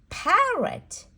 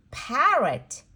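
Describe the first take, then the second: No difference in how they are said.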